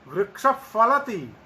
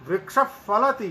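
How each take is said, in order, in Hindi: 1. पहला शब्द "f" और "h" के बीच की फूँक पर खत्म होता है। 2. पहला शब्द "f" और "h" के बीच की फूँक पर खत्म होता है।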